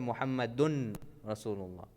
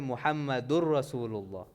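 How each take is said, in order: First: The n sound is pronounced before the r. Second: The n sound merges into the following r. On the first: The speaker calls it wrong. "You do not say Muhammadun Rasulullah" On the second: The speaker calls it right. "that's why you say Muhammadur Rasulullah"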